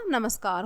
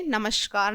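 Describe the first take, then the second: First: Said in the usual way. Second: "नमस्कार" with SH for S; wrong sibilant. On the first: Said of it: "नमस्कार होता है बच्चों". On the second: Shown as a demonstration. Teacher rejects error for children, SH inside "नमस्कार". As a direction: say "नमस्कार" as namashkaar. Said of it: "नमस्कार नहीं होता".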